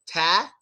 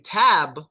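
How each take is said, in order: First: The final b is left out entirely. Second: The final b is fully released with air. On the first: "Do we just say ta" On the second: "since we don't say tab"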